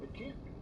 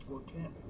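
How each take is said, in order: First: "can't" pitched up high, emphatic; stress on can't. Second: Said in the usual way. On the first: Real, not acted. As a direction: hit "can't" hard and high. Repeats claim, second time stronger.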